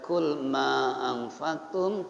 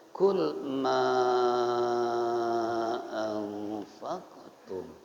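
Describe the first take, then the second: First: The long vowel is held for two beats. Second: The long vowel is held for five beats. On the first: "Panjangnya boleh dua" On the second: "boleh lima"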